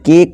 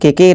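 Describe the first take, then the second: First: One syllable, with the final e silent. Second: Two syllables, with the final e sounded. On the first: The speaker calls it right. "केक पढ़ेंगे" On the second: The speaker calls it wrong. "इसे के के नहीं पढ़ेंगे"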